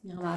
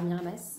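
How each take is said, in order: First: The final s is silent. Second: The final s is pronounced.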